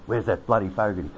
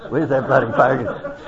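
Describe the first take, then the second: First: Said in the usual way. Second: "bloody" lifted with a rising end, louder through a laugh; laughing mock call. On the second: [name] searching the crowd for Fogarty, laughing mock call. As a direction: call it out again, amused.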